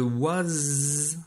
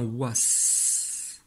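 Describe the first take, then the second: First: "was" ending in a long buzzed z; "was" said as waz, ending stretched; voiced ending. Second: "was" ending in a long hissed s; "was" said as wass, with no buzz; voiceless ending. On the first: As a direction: hold a voiced z at the end of "was". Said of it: "le was doit se transformer en was". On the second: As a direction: stretch a sharp s at the end of "was". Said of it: "doit se transformer en was". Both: Shown as a demonstration.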